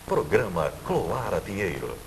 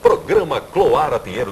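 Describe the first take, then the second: First: It is said softly but with enthusiasm. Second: It is shouted loudly. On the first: "Eu posso falar baixinho, mas com o mesmo entusiasmo" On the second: "Ao invés de chegar e gritar aqui"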